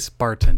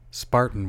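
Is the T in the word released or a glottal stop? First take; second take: released; glottal stop. First: The T is released clearly and hard. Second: The T is replaced by a glottal stop. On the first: "do you hit the T? Are you supposed to hit the T that hard?" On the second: "Spartan without the T, that's a glottal stop"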